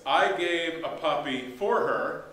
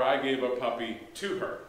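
First: The word "for" stressed, said slowly. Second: "to" said with a rising tune; stress on to. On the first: Pastor to congregation, slowly stressing "for". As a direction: lean on "for" to show the contrast. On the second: Pastor contrasting "for" with "to", stressing "to". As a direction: lean on "to" to set it against "for". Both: Shown as a demonstration. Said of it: "when you say, like, for instance".

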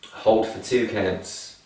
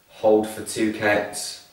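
Both takes have the same delivery.

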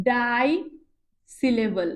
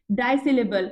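First: "ডাই syllable" with a long pause after ডাই; term in pieces. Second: Said in the usual way. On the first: Shown as a demonstration. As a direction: set "ডাই" apart, then "syllable" falling. Teacher spells out new term. ("ডাই syllable" থেমে থেমে)

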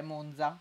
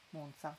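First: "Monza" with a voiced dz; "Monza" pronounced "Mondza". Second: "Monza" with a voiceless ts; unvoiced z in "Monza", as in "palazzo". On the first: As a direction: buzz the z in "Monza", as in "zanzare". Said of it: "pronuncio con la Z sonora". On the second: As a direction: say "Monza" as "Montsa". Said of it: "Monza è con la Z sorda". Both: Shown as a demonstration.

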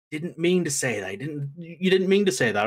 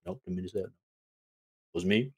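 First: Hurried excuse-making, pitched a little up; mock pleading defense. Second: Low, soft disowning of blame; mock sheepish denial. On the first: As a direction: lightly act out covering for a friend. Sammy defends Jay to the chief. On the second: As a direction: deny it under your voice, imitating the culprit. Jay's denial, voiced by host.

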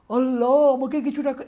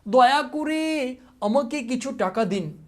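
First: Exclamation. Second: Slow, high begging plea; pleading request. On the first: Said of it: "এখানে তো অবাক". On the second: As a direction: beg for money like a pauper. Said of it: "এটা কী ধরনের বাক্য?". (অনুনয় করে ধীরে ভিক্ষা চাওয়া) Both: Shown as a demonstration.

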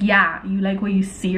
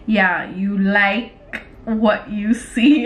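First: Said in the usual way. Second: Slow, spaced-out words; typing aloud. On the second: Real, not acted. Typing a flirty line to him, slow dictation. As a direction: draw it out as you type.

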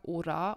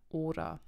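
First: Ora with the stress pushed onto the final a; wrong last-syllable stress. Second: Ora stressed on its opening O; stress on first syllable. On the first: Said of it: "Ich habe nicht gesagt". (ora falsch auf der letzten Silbe betont) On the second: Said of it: "Heißt also die vorletzte Silbe". (ora richtig auf der vorletzten Silbe betont) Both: Shown as a demonstration.

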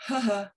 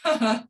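First: Grudging, reluctant little ha ha; forced half-hearted "Ha ha"; resistant fake laugh. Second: Louder, scornful "Ha ha"; mock someone else for laughing. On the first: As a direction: laugh as if you don't want to. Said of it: "and the resistant". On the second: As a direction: derisive mock "Ha ha". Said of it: "like you're mocking other people for laughing". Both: Shown as a demonstration.

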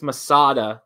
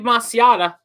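First: "Masada" as the corrected, three-syllable version; corrected pronunciation. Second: "Masiata" in the slip-up version, with the extra syllable in the middle; wrong pronunciation. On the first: Host correcting himself to say mah-SAH-dah. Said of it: "It's Masada". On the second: Host misreading a bidder's name as mah-see-AH-tah. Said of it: "I keep saying it like that. That's not right". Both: Real, not acted.

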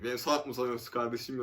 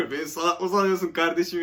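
First: Said in the usual way. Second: Louder, half-acted outrage quoting Habib; mock indignant retort. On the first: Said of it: "Yaz oraya, dedi". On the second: Friend Habib dictating a reply to scammers, louder mock indignation. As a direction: fire it back like a scornful friend. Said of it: "yaz dedi Habib".

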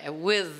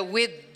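First: With said right, ending in a soft blown TH; correct soft TH. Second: With said wrongly with a hard D at the end; wrong D version. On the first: Teacher contrasting the right TH in with with the D. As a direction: end with by blowing air gently through the TH. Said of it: "Tem que assoprar um pouquinho". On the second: Teacher showing the wrong D sound in with. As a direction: end with on a D sound, like a Brazilian learner. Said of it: "o D seria with". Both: Shown as a demonstration.

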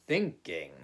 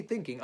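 First: "thinking" set apart, loud and falling; stress on thinking. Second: Said in the usual way. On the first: A narrator's reading. Rabbit telling Owl what he really means, "thinking" heavily stressed. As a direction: land heavily on "thinking" after a pause.

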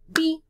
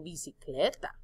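First: "Bi-ci-cle-ta" in four loud, high beats with pauses; counting out syllables. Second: Said in the usual way. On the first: Shown as a demonstration. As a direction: break "Bi-ci-cle-ta" fully apart. ("Bi-ci-cle-ta" sílaba por sílaba, con pausas) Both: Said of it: "¿Cuántas sílabas en bicicleta?".

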